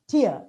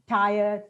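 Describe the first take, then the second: First: The vowel sounds like ear, rhyming with fear. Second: The vowel sounds like eye, rhyming with fire. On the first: The speaker calls it right. "It's actually tier" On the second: The speaker calls it wrong. "We talk about uh, three tire, two tire"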